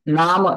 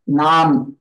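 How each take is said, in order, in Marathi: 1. m नंतरचा शेवटचा स्वर पूर्णपणे उच्चारला जातो. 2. m नंतरचा शेवटचा स्वर लोपतो. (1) "नाम ऐसा न बोलते हुए" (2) "नाम ऐसा बोलेंगे"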